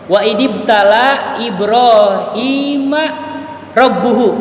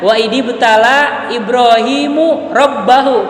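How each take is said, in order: First: Ibrahim ends in a, rabbu in u. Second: Ibrahim ends in u, rabba in a. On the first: God tested Ibrahim. The speaker calls it right. "Ibrahima harokat akhirnya apa, Pak? Patah kan?" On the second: Ibrahim tested his God. The speaker calls it wrong. "kebalik harokatnya"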